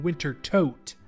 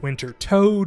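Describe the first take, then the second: First: The last syllable has a long o and ends in t. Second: The last syllable has a long o and ends in d. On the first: "and Winter Tote" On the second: "I've heard it called Winter Toad"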